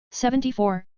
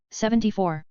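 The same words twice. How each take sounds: The two takes are said the same way.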